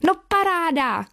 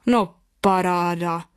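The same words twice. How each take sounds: First: Put-on excited boy's exclamation, high and falling; nadšený výkřik. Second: Slow, drawn-out astonished exclamation; surprised father. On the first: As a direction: cheer it with delight, pitched up high. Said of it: "křičel nadšeně Jozífek". (nadšený klučičí výkřik) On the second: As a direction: stretch it out in stunned surprise. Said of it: "vykřikl překvapeně tatínek". (překvapený, protáhlý tatínkův povzdech nad spouští) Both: A narrator's reading.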